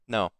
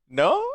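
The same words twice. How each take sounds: First: The voice falls at the end. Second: The voice rises at the end, questioning.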